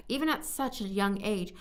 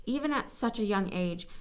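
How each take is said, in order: Both takes have the same delivery.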